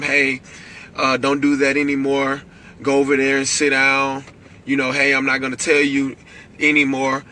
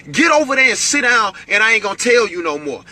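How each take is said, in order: First: Put-on even, patient warning to a child; a parent's first calm telling-off. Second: Higher, louder stern warning; escalated parent voice. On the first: Parent calmly warning a misbehaving child, calm voice. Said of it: "you start off in a calm voice". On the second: Parent escalating at a child who won't listen, stern raised voice. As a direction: raise your voice like a fed-up parent. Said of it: "your voice has to get escalated". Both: Shown as a demonstration.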